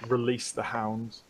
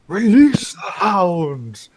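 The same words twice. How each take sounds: First: It is said in an ordinary speaking voice. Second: It is said in a put-on character voice.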